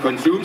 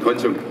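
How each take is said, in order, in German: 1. Es wird auf die Standardweise gesagt. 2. Es wird auf die alte regionale Weise gesagt. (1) "Wir haben nicht Konsum" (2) "Früher haben wir gesagt, der Konsum. ... sondern Konsum"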